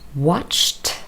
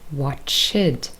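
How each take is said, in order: First: The ending is a plain t sound. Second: The ending is sounded as an extra syllable. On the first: The speaker calls it right. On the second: The speaker calls it wrong.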